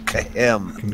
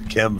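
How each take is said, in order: First: It is said with a Hebrew pronunciation. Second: It is said with a plain English pronunciation. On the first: The speaker calls it right. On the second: The speaker calls it wrong.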